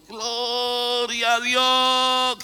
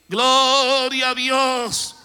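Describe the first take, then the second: First: Long, slow, high drawn-out shout of praise; crowd shout. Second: Slow, even louder high cry of praise; louder crowd shout. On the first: The people of Israel at the walls, slow loud shout. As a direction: stretch it out like a huge crowd crying to God. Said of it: "Y el pueblo gritó". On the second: The crowd at the seventh lap, slow loud cry. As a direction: lift it higher, the whole nation shouting. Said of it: "Quiero pensar". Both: Retold or imitated.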